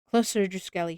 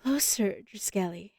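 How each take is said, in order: First: It is read plainly, without acting. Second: It is crooned in a taunting character voice.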